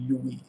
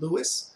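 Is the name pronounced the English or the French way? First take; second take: French; English. First: The name is said with a French pronunciation. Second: The name is said with an English pronunciation. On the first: The speaker calls it right. "it's really Louis, since of course he's French" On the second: The speaker calls it wrong. "in English you tend to pronounce it Louis"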